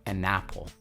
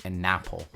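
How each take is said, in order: Both takes have the same delivery.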